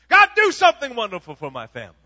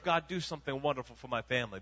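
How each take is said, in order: First: It is said with strong, exclaiming emphasis. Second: It is said in a calm, plain way.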